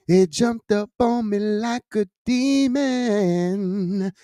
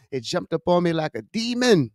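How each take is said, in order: First: Slow, higher, stretching every word; half-chanted, slow and raised for drama; dramatic drawn-out repeat. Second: Said in the usual way. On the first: Real, not acted. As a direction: draw "demon" right out for effect.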